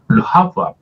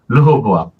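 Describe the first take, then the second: First: The name is said as 'reu-ha-beu-am'. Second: The name is said as 'reu-ho-bo-am'.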